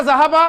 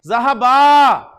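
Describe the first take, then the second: First: Said in the usual way. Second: ज़हबा with the last आ held very long; long final vowel. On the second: Shown as a demonstration. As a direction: stretch the final vowel of ज़हबा, then let it fall. Dual form with long final vowel.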